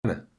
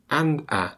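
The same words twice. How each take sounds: First: "anna", the d dropped; shortened form. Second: "and a" as two separate full words; full form. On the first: Teacher showing the shortened form, quick "anna". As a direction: squeeze and a into a quick weak "anna". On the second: Teacher contrasting the unreduced form, full "and a". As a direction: sound the d in "and", then a distinct "a". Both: Shown as a demonstration. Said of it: "shortening to".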